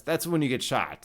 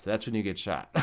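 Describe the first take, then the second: First: Said in the usual way. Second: Softer, lower, laughing through it; low laughing aside. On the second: Real, not acted. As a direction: chuckle the repeat at your own joke. Repeats the punchline, laughing.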